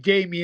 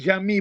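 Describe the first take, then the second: First: The name has an anglicized English pronunciation. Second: The name has a non-English, original pronunciation. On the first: This is how people in the UK say the name. "we just say Jamie in English" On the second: This is how the family says the name. "my parents would call me Jami"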